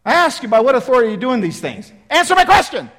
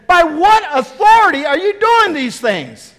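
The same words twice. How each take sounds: First: Fast, loud, high repeat of the challenge; exasperated priest repeating the demand; insistent demand. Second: Loud, slow, high accusing question; booming challenge from the chief priests; challenging demand. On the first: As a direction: press him impatiently for an answer. Priests insist on their question. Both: Acted.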